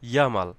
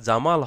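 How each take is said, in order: First: The name begins with a Y sound. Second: The name begins with a J sound.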